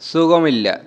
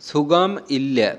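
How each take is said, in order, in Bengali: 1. এতে একটা স্পষ্ট মালয়ালম সুর ও টান আছে। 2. এটা সমতল সুরে বলা হয়েছে, সাধারণ বাংলা সুরে। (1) "কথাটা বলার সময় একটা অন্যরকম টান চলে আসবে" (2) "আমরা যে সাধারণভাবে বলি"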